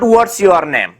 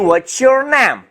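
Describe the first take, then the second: First: The t and y stay as separate sounds. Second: The t and y merge into a ch sound. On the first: The speaker calls it wrong. "नॉट ... that will be wrong" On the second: The speaker calls it right. "तो आप कहेंगे"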